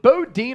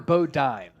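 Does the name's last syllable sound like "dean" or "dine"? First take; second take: dean; dine. First: The last syllable rhymes with "dean". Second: The last syllable rhymes with "dine".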